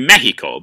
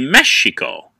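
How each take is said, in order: First: The middle consonant is a harsh h-like sound. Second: The middle consonant is a sh sound. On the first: "that's why the Mexicans pronounce their country Mexico" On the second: "the X, is actually a sh sound. So it literally should be Mexico"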